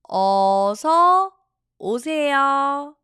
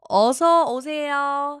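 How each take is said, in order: First: It is said slowly. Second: It is said at normal speed.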